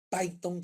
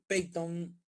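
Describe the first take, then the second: First: The first syllable is said with an 'a' sound. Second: The first syllable is said without an 'a' sound.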